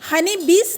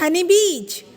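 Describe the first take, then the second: First: The last sound of bees is a hissing s. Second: The last sound of bees is a buzzing z. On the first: The speaker calls it wrong. "यहाँ पे हम हनी बीज नहीं कहते हैं" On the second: The speaker calls it right. "जब S का उच्चारण यहाँ पे जेट जैसे होती है"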